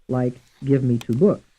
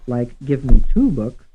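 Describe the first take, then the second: First: The stress falls on the word books. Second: The stress falls on the word two. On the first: "And some stressed on the fourth syllable" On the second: "Some stressed on the third syllable"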